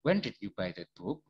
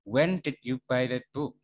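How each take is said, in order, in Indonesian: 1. Nada naik di akhir. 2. Nada turun di akhir. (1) "Bukan when did you buy that book? Bukan gitu loh ya" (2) "nada belakangnya itu turun"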